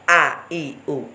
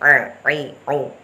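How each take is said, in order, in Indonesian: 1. Bunyinya dibuat di dalam, seperti hamzah. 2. Bunyinya dibuat di tengah tenggorokan. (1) "bukan a-i-u" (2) "Tengah-tengah antara ngangingu dan a-i-u, disitulah makhrajnya ain"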